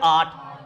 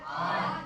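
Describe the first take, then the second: First: Said in the usual way. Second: Soft whispered आठ, no voice; whispered answer. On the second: Shown as a demonstration. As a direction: whisper आठ, higher and much softer. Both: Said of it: "इसकी संख्या कितनी है?".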